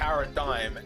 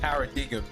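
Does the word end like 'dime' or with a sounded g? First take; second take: dime; sounded g. First: The ending sounds like 'dime', g silent. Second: The ending is sounded with a g. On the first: The speaker calls it right. "why do we pronounce D I G M dime" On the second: The speaker calls it wrong. "not paradigm"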